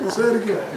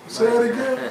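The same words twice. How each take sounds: Both takes have the same delivery.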